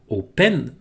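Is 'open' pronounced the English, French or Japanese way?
French. It is said with French vowels and nasal ending. The speaker calls it wrong. "ça se prononce pas open en anglais"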